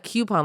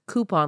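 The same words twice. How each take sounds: First: The first syllable sounds like 'kyoo'. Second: The first syllable sounds like 'koo'. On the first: "coupon like Q-tip" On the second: "or like coupon like Cooper"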